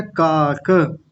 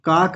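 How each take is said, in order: First: काक as kaa-ka, long first syllable, released a; full final vowel. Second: काक as one syllable, kaak; clipped final vowel. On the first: Teacher introducing the first word, काक with final a. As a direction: sound the last a of काक. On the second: Teacher showing the mistake, काक without final a. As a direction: stop काक on the k. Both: Shown as a demonstration. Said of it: "काक नहीं बोलेंगे".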